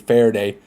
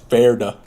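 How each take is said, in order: First: The name ends with an 'ay' vowel. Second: The name ends with an 'uh' vowel. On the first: The speaker calls it wrong. "if I was pronouncing it like Spanish" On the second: The speaker calls it right. "But no, it's Ferda"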